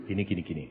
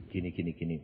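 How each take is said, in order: First: Low, soft and even; God's soft answer. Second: Low, softer and even; God's soft answer. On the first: God explaining to preacher, low soft calm. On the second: God answering again, low soft calm. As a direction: repeat it calmly as God. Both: Acted.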